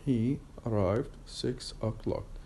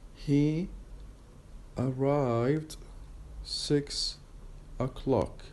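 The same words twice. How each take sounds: First: The words run together at natural speed. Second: Each syllable is said slowly and separately. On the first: "when I pronounce it as uh, connected speech" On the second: "very uh, uh, um, slowly first"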